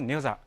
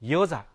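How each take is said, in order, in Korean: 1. 이 단어는 n 소리로 시작해요. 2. 이 단어는 y 소리로 시작해요. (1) "중국과 조선에서는 녀자, 발음 그대로 녀자" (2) "하지만 한국에서는 여자"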